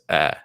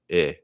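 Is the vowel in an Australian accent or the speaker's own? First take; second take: own; Australian. First: The vowel is a plain, steady eh sound. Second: The vowel sounds like an Australian eh sound. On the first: "for me, it's like this eh sound" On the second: "this guy's Australian accent... more like eh"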